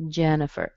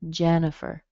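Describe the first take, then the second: First: The second vowel is a weak, reduced schwa sound. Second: The second vowel is a weak, reduced schwa sound.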